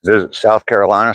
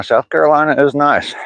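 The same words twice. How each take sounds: First: Said in the usual way. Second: South Carolina said high and sing-song Southern. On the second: Shown as a demonstration. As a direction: lean into a Southern twang on Carolina. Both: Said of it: "reads comment then repeats".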